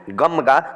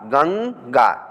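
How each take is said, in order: First: The nasal before g sounds like m. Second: The nasal before g sounds like n. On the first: The speaker calls it wrong. "गमगा अगर पढ़ेंगे इसको गमगा तो गलत हो जाएगा" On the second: The speaker calls it right. "न की आवाज़ इसमें निकालेंगे"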